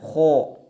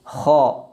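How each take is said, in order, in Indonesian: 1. Vokalnya membulat, bibir dimonyongkan ke depan. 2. Vokalnya terbuka, bibir tidak membulat. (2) "ketika fathah tidak dimonyongkan mulutnya"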